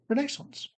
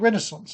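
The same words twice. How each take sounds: First: The name is said the British way. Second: The name is said the American way.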